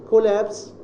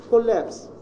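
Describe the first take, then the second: No difference in how they are said.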